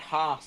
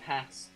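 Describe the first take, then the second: First: It is said in a Southern English accent. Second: It is said in a Northern English accent.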